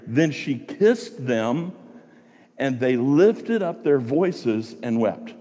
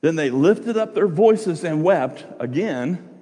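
First: Slow, deliberate reading of the verse; scripture reading. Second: Slow, raised reading of the verse; scripture reading. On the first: Preacher reading verse nine to the congregation, slow and deliberate. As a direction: read the verse slowly, weighing each phrase. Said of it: "Let's look at verse nine". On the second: Preacher reading verse fourteen to the congregation, slow and raised. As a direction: read slowly, lifting voices and wept. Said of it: "look at verse fourteen". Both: Shown as a demonstration.

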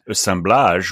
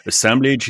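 First: "Assemblage" said the French way, ending in "-blahzh"; French pronunciation. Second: "Assemblage" said the English way, ending in "-blidge"; English-style pronunciation. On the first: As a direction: say "Assemblage" as a French word, open a and zh at the end. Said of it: "will be a more French pronunciation". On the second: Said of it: "is perfectly fine by me". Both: Shown as a demonstration.

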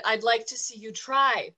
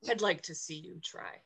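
First: Firm, louder emphatic dare; repeated louder taunt. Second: Low, soft menacing dare; quiet taunt. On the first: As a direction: say it again so he hears it. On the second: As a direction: murmur the challenge under your breath. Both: Acted. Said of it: "I said".

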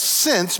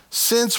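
First: "Since," read out with a falling tone; stress on since. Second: "since" pitched up high and pressed; emphatic since. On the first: Pastor reading scripture, leaning on "Since,". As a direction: lean on "Since," as the key word. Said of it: "meaning this is why". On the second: Pastor asking the congregation, "since" hit high. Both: Shown as a demonstration.

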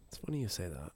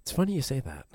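First: Much softer, lower, like a secret; hushed repeat. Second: Said in the usual way. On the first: Shown as a demonstration. Friend teasing a juicy story, softly. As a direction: say it again under your breath.

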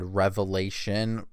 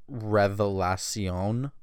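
First: Said in the usual way. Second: Revelacion said slowly in Spanish, re-ve-la-SION; slow careful Spanish Revelacion; Spanish pronunciation. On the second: Shown as a demonstration. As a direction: sound out Revelacion as a Spanish word, stress on the last syllable. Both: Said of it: "That's how it's spelled".

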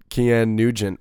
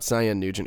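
First: "Kian Nugent" said as the proper way; correct name pronunciation. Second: "Cyan Nugent" given as the mistaken way; wrong name pronunciation. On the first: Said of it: "which is actually how you say his name". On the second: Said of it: "not Cyan Nugent". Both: Shown as a demonstration.

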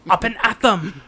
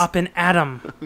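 First: "at them" said stiffly with a mock Austrian accent, louder; hammed-up Austrian catchphrase. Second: Plain catchphrase. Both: Shown as a demonstration.

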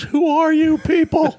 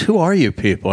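First: Very high, drawn-out disbelief; astonished mock outcry. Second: Raised pitch, moderately emphatic; retold baffled question. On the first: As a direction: imitate a flabbergasted guard, voice shooting up. Guard astonished as thousands are counted out. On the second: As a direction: imitate a puzzled guard questioning them. Border guard questions the celebrities.

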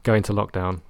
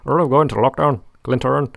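First: Said in the usual way. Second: Higher, louder mock Northern Irish accent; imitating a mate's Northern Irish accent; [name]'s Northern Irish accent. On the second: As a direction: put on a loud, high Northern Irish accent. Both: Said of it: "[name] in his Northern Irish accent".

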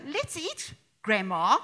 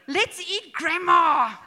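First: "Let's eat," small break, then "grandma" as a call, slow; comma before grandma. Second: "Let's eat grandma" loud and slow, all one phrase with no break; no comma, run together. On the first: Vlogger reading the corrected comma version slowly. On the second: Vlogger showing the missing comma joke, slow and loud. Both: Shown as a demonstration. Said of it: "what a difference".

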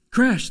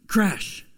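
First: Called out loud and high; a big mock crash; loud sound effect. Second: Said in the usual way. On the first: Acted fall of child.

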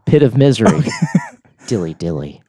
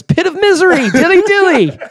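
First: Plain voice, through real laughter; laughing repeat. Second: Chanted, much higher squeaky mock cheer; chanted, pipe it up like a giddy courtier; side guy's chant. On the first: Real, not acted. Host cracking himself up repeating the joke, laughing. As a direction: chuckle it out as you repeat it. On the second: Chanted, guy off to the side cheering the sentence, in a high mock squeal. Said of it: "there's a guy off to the side goes".

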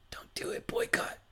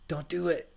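First: Breathy unvoiced whisper. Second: Said in the usual way. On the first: Shown as a demonstration. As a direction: whisper it conspiratorially. Repeats as a whisper.

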